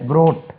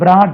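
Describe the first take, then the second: First: The vowel is a rounded 'aw' sound. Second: The vowel is an open 'ah' sound. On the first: The speaker calls it right. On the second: The speaker calls it wrong. "இது வந்து பிராட் இல்லை"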